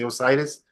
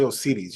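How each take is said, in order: First: The name is pronounced with English sounds. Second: The name is pronounced with Spanish sounds. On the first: This is how English speakers say it. "you say Osiris" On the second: This is how Spanish speakers say it. "in Espanol, Osiris, we say Osiris"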